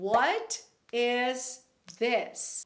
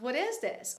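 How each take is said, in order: First: The t in 'what' is a clear t. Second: The t in 'what' sounds like an r.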